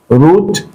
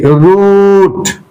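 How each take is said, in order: First: Said in the usual way. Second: Root drawn out with a falling end; long vowel. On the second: Shown as a demonstration. Teacher modelling the word, long vowel in root. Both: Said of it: "long vowel sound".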